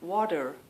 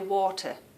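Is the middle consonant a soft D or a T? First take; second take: soft D; T. First: The middle consonant is a soft D sound. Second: The middle consonant is a clear T sound. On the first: "they drop the T and they put in a soft sounding D" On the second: "we say water"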